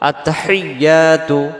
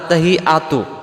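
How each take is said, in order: First: The y sound is held and doubled. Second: The y sound is short, not doubled. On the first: The speaker calls it right. "এই তাসজিদটা সহ আদায় করার জন্য বলতে হবে" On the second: The speaker calls it wrong. "এখন আসেন এই শব্দটাতে আমরা কি ভুল করে ফেলি, আমাদের উচ্চারণে"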